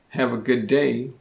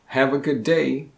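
The two takes are said the same way.

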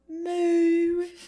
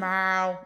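First: The moo is said in a British accent. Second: The moo is said in a Boston accent. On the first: "A British cow" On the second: "I'm trying to figure out how to do the Boston accent"

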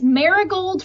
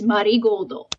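First: It is said the English way, ending in 'gold'. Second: It is said the Japanese way, ending in 'goldo'. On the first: "Marigold for like our Western palette" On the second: "the pronunciation they use is the Japanese pronunciation"

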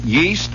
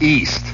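First: The word starts with a Y sound. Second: The word starts with no Y sound. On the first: "They pronounce the Y" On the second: "not pronounce the Y"

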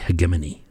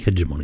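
First: The G is hard, like in go. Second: The G is soft, like a J. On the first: The speaker calls it wrong. "with a hard G" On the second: The speaker calls it right. "I think hegemony sounds better"

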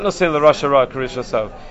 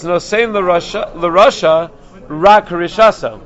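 First: It runs on with no pause after Rasha. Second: There is a break after Rasha.

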